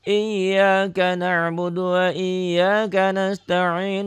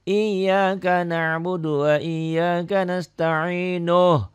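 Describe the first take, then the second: First: The final vowel is dropped before a stop. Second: The final vowel is kept and flows onward. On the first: "yang biasa saya lakukan dibagi dua" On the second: "kalau nyambung ujungnya dibaca apa adanya"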